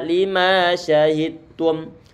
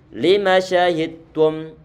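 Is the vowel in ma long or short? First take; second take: long; short. First: The vowel in ma is stretched long. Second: The vowel in ma is kept short. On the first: The speaker calls it wrong. "tidak dibaca lima syahidtum" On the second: The speaker calls it right. "hanya sekedar satu harokat saja"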